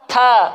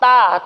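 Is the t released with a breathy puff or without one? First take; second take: puff; no puff. First: The t is released with a breathy puff. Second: The t is released without a breathy puff. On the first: The speaker calls it right. "itu tepat" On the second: The speaker calls it wrong. "kurang tepat"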